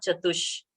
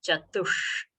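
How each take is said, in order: First: "Chatush" ending in a plain, forward English sh; wrong flat sh. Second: "Chatush" slower, with a curled-tongue, held hushing sh; retroflex sh. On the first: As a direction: say "Chatush" with the tongue uncurled. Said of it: "It is not Chatush". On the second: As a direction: curl the tongue and hold the end of "Chatush". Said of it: "It is Chatush". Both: Shown as a demonstration.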